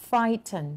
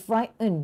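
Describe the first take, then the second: First: "frighten" with a clearly sounded T. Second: "frighten" with the T left silent; T dropped. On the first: Teacher shows students a word, T sounded in "frighten". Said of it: "frighten ที่มีตัว T". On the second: Teacher gives the other pronunciation, T dropped in "frighten". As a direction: drop the T in "frighten". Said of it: "ไม่มีตัว T". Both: Shown as a demonstration.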